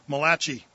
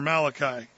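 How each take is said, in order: First: The name is said with an Italian-sounding accent. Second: The name is said with a plain English accent. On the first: "to the Italian in the Bible" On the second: "or Malachi, as it were"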